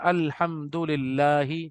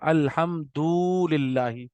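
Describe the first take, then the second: First: The vowels have their normal length. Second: One vowel is stretched out extra long. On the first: The speaker calls it right. "जैसे हम पढ़ते हैं" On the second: The speaker calls it wrong. "जहाँ खींचना नहीं था, आपने उसको वहां खींच दिया"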